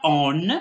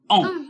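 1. Une consonne n est entendue après la voyelle. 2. Une seule voyelle nasale, pas de consonne n. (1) "On ne dit pas on" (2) "mais on dit on"

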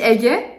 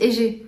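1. Le mot « Égé » se prononce à la turque. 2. Le mot « Égé » se prononce à la française. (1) "en turc on dit Égé" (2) "je crois en français on dit Égé"

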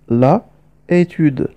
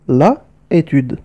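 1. يُبقى حرف العلة في أداة التعريف قبل الاسم. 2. يُبقى حرف العلة في أداة التعريف قبل الاسم.

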